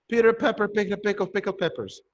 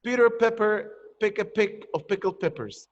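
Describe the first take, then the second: First: Brisk, unbroken run of the twister; quicker repeat-style recitation; quick tongue twister. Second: Said in the usual way. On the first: Shown as a demonstration. Same tongue twister repeated faster.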